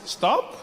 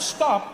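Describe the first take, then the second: First: It is said as a gentle suggestion. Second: It is said as a firm command.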